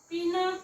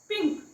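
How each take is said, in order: First: An extra vowel separates the n and k. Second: The n and k join with no vowel. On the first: The speaker calls it wrong. "पी न क असं नाही वाचायचं" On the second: The speaker calls it right. "हा उच्चार short करावा लागतो"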